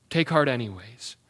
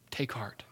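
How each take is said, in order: First: Said in the usual way. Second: Near-whispered, much softer comfort; soft take heart. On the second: Real, not acted. Pastor to suffering believers, softly hushed encouragement. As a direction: hush it gently to the hurting.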